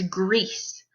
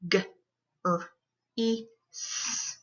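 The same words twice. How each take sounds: First: Said in the usual way. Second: GREASE split into four sounds; g... r... ee... s, with gaps; sounded out phonemes. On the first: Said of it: "breaking down those words". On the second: Shown as a demonstration. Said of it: "breaking down those words into their sounds".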